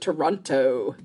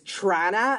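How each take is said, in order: First: All three syllables are said out in full. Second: It is squashed into two syllables, like Trana. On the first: The speaker is not from the local area. "as opposed to Toronto" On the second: The speaker is from the local area. "make it sound like it's Trana"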